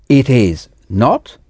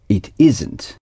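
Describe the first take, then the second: First: All three words are said in full. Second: The last two words are contracted together.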